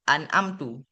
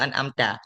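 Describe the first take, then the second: First: The word ends in the vowel u. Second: The word ends in the vowel a. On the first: The meaning of the verse is changed. The speaker calls it wrong. "ataupun an amtu" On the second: The verse keeps its proper meaning. The speaker calls it right. "bacaan yang betul iaitu an amta"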